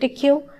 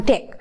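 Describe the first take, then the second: First: It is said as two letters, D Q. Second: It is said as one syllable, deck. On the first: "in simply form we uh, call it D Q" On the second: "actually this is pronunciation as a deck"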